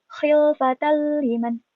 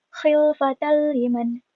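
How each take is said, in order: Both takes have the same delivery.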